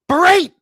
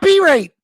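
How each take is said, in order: First: The stress is on the second syllable. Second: The stress is on the first syllable. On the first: The speaker calls it right. "Emphasis. Berate" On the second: The speaker calls it wrong. "not berate"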